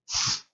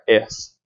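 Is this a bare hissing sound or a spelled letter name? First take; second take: hissing sound; letter name. First: Only a bare hissing sound is said. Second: The letter name is said with a vowel. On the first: The speaker calls it right. "Eu tenho que falar S. Esse é o som" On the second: The speaker calls it wrong. "esse fonema eu não posso falar S"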